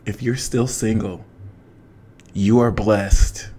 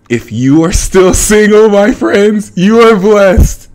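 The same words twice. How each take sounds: First: Serene higher self. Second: Said in the usual way. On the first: Pretend. To single fans, speaking as her higher self, hushed. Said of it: "as from my higher self". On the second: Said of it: "here's what my real self has to tell you".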